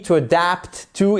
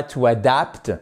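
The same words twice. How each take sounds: First: "adapt" stressed on its second syllable, a-DAPT. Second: "adapt" stressed on its first syllable, A-dapt; misplaced stress. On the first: Teacher models the word for learners, stress on a-DAPT. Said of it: "seconde syllabe du mot". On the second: Teacher shows learners what to avoid, stress on A-dapt. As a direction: give the opening "a" of "adapt" full weight. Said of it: "et pas to adapt". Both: Shown as a demonstration.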